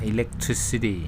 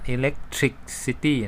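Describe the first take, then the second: First: It is said the way native English speakers say it. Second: It is said in a non-native, Thai-style reading. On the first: The speaker calls it right. "เจ้าของภาษาเขาจะอ่านว่า" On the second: The speaker calls it wrong. "อย่าไปอ่าน"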